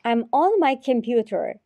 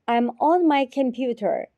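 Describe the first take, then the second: No difference in how they are said.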